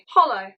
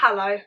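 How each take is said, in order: First: The word sounds like hollow. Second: The word sounds like hello. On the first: The speaker calls it right. "It should be hollow" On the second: The speaker calls it wrong. "I've been saying hello. It's not hello"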